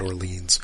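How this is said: The name is said with an American pronunciation. It follows the speaker's own habitual way of saying it. "I'm American and we mispronounce everything"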